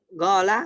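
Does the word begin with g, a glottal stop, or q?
g. It begins with a g sound, Gulf style.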